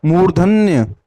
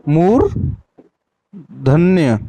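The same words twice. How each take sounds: First: Said in the usual way. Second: मूर्धन्य stretched out very slowly, syllable by syllable; drawn-out demo. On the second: Shown as a demonstration. Teacher drills the class, drawing मूर्धन्य out very slowly. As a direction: draw मूर्धन्य out very slowly for the students. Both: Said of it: "क्या बोलेंगे?".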